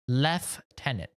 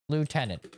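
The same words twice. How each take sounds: First: It is said with an F sound. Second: It is said without an F sound. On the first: The speaker calls it wrong. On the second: The speaker calls it right.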